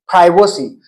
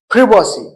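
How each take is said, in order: First: It is said in an American accent. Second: It is said in a British accent. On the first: "While in American English, it is privacy" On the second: "Like in British English, it is privacy"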